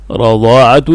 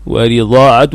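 First: رضاعة as radaa'atun; first take of رضاعة, ra opened with fatha. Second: ورضاعة as wa-ridaa'atun; ورضاعة with its ra in kasra. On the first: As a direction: say رضاعة with a short "a" after the r. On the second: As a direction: say ورضاعة with a short "i" after the r. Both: Shown as a demonstration. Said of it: "بالفتح والكسر أيضًا في الراء".

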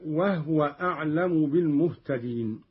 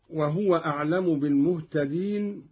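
First: وهو said "wahwa" in two syllables; silent-vowel haa. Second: Said in the usual way. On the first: Shown as a demonstration. Teacher demonstrating Qalun's reading, وهو with vowelless ha. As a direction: drop the vowel after the h in وهو. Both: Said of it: "قرأ قالون بإسكان الهاء".

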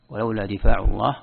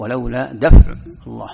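First: ولولا دفاع الله with the long a in دفاع, difa'; reading with دفاع. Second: ولولا دفع الله with دفع short and clipped as daf', said louder; reading with دفع. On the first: Teacher reads the first variant, دفاع with a long vowel. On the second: Teacher gives the second variant, دفع short and louder. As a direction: punch out دفع as daf', no long vowel, and louder. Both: Shown as a demonstration. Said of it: "أو".

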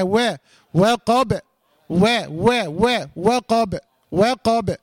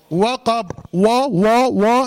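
First: وقب with a thin "we" before the heavy q; repeated thin و, like "we, we", then وقب; light waw. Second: وقب with a rounded, thickened "wo" at the start; repeated heavy و, like "wo, wo"; wrongly heavy waw. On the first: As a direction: keep و light and unrounded, then a full qab in وقب. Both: Shown as a demonstration. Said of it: "احرص على ترقيق الواو".

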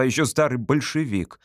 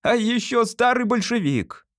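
First: Said in the usual way. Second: High-pitched mocking call; shouted after him. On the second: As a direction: call it out after your departing father. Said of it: "прокричал ему вдогонку".

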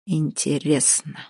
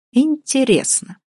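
First: Low musing. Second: "интересно" drawn out high and slow, falling; drawn-out high interest. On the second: The man pretending to be a prosecutor, suspicious. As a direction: stretch the word in mock suspicion. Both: Acted. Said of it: "прокурорским голосом".

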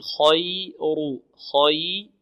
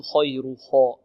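First: خير with heavy kh, light y, unrounded lips; correct light Y. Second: خير with lips pursed on the kh; wrong rounded kh. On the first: Teacher modelling خير, heavy kh and light Y. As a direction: keep the Y thin in خير. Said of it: "والياء مرقة قول". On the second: Teacher showing students the mistake, rounded kh in خير. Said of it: "ولا نقول". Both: Shown as a demonstration.

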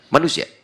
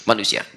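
First: Manusia with a rising, asking tune. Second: Manusia with a settled, falling tune. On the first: Preacher asking the crowd with Manusia, rising. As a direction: lift the end of Manusia like a question. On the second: Preacher answering his own question with Manusia, falling. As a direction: let Manusia drop to an answer. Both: Shown as a demonstration.

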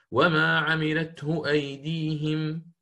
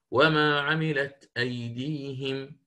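First: Hafs recitation. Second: Slow "وما عملت أيديهم" with "عملت" said without the ha; Shu'ba reading. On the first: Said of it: "في قوله تعالى". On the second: Teacher demonstrates Shu'ba's reading, slow. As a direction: drop the ha: "عملت" slowly. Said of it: "يقرأ". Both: Shown as a demonstration.

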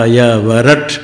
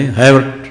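First: ह, य, व, रट one by one with final ट sounded; every letter pronounced. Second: है वट run together as two syllables; letters swallowed. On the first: Teacher modelling the sutra, ह, य, व, रट distinctly separated. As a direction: separate ह, य, व and finish रट on a clear ट. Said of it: "ट उच्चारण करना चाहिए". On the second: Teacher showing the careless way, है वट blurred together. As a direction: merge the separate letters into a hurried है वट. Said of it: "नहीं तो क्या रहे". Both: Shown as a demonstration.

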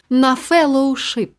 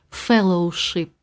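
First: На феллоушип, протягнуто й повільно; посмакувати слово феллоушип; повільно смакуючи слово. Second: Феллоушип, окремо й нижче, з іронією; передражнити слово Феллоушип; іронічне слівце. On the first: (повільне на феллоушип) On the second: (іронічне Феллоушип) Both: Acted. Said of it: "От слівце так слівце".

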